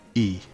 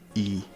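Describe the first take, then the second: First: The syllable is said on a low tone. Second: The same.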